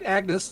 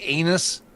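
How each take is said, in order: First: The name is said with a clear g sound. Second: The name is said without a g sound. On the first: This is the name's real pronunciation. The speaker calls it right. "no, I'm right, Agnes. That's the name" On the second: This is how others in the film said it. The speaker calls it wrong. "how they kept uh, pronouncing Agnes. ... Like anus"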